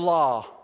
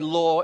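First: The word is said imitating the listeners' accent. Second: The word is said in the speaker's own accent. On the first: "whereas you go law" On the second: "apparently I say law in the correct way"

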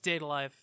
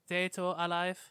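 First: The title is said with English-style pronunciation. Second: The title is said with Japanese-style pronunciation. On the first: "I die inside every time you pronounce it that way" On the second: "That's how you say it in Japanese"

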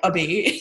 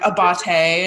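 First: The final E is silent. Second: The final E is sounded as a vowel. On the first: The speaker calls it wrong. "and not like Abate" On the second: The speaker calls it right. "put like an accent over the E so that like people know it's like Abate"

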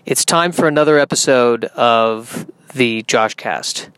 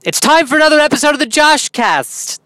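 First: It is said flatly with low energy. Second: It is said in a silly, goofy manner.

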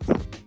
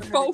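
First: It has a short vowel and ends in x. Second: It has a long o vowel and no x. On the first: "some people tend to pronounce foe as fox" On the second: "But the hater foe friend"

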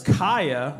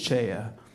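First: The word begins with a K sound. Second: The word begins with a sound other than K. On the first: The speaker calls it right. "CH is a K sound" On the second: The speaker calls it wrong. "I think it's chaya"

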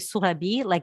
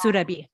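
First: The name is said with a French accent. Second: The name is said without a French accent.

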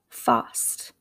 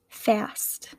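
First: Spoken in a British English accent. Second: Spoken in an American English accent. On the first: "I'm sure that I am not doing your accent justice" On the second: "those same words with my American accent"

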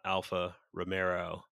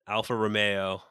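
First: The last word ends 'mero' with an r sound. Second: The last word ends 'meo' with no r sound. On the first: The speaker calls it wrong. "not Alfa Romero" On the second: The speaker calls it right. "there's no R in there"

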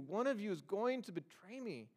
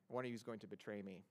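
First: It sounds troubled and full of emotion. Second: It sounds casual and matter-of-fact, without emotion. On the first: The speaker is deeply grieved by the betrayal. The speaker calls it right. "No, there's emotion involved in this. Jesus says he's troubled in his spirit" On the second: It is just an announcement of news. The speaker calls it wrong. "Don't read it so academically that you read it as if Jesus said, hey, I have an announcement to make"

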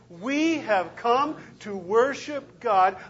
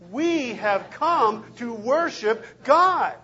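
First: It is said at a normal, quieter volume. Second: It is said at a louder volume. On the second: "Again and louder"

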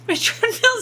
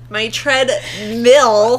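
First: The last syllable sounds like 'mule'. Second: The last syllable sounds like 'mill'. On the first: "You're saying mule like Mjolnir" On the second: "That feels just wrong in my mouth"

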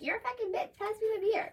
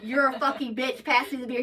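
First: It sounds sassy and playfully teasing. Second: It sounds genuinely hostile and mean.

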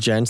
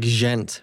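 First: It begins with an English J sound. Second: It begins with a French soft zh sound. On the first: "like gentleman" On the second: "or like French?"

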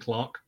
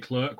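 First: The word is said in the British way. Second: The word is said in a non-British way. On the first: "we say clerk" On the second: "technically in the UK, we don't say clerk"

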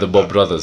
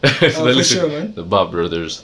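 First: The name is said in a plain, normal way. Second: The name is said in a playful, joking way. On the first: The speaker is naming the group seriously. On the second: The speaker is just fooling around.

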